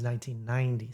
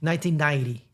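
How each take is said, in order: First: Softer, careful "nineteen ninety"; learned pronunciation. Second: "nineteen ninety" with swallowed consonants; newcomer's pronunciation. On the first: Showing the learned version, carefully softened. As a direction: give each syllable of "nineteen ninety" room. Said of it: "had to learn those things". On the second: Imitating newcomers, consonants swallowed. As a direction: run the Ns together in "nineteen ninety". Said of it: "hasn't been here a long time". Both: Shown as a demonstration.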